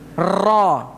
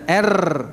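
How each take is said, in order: First: The r is trilled lightly and faintly. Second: The r is trilled strongly and clearly. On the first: This is the Arabic letter ra. The speaker calls it right. "Ra tidak. Tidak secetha" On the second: This is the r as said in Indonesian. The speaker calls it wrong. "Kalau kita ucapkan r gimana?"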